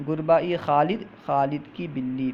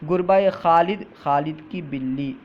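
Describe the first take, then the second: No difference in how they are said.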